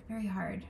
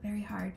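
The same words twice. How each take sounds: First: Soft whispered repeat. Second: Said in the usual way. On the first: Real, not acted. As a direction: breathe it out as a whisper. Repeats phrase, then whispers it.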